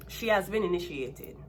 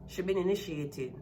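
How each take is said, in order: First: "has" leaned on in correction; self-correction stressing "has". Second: Said in the usual way. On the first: Real, not acted. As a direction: correct yourself, hitting "has".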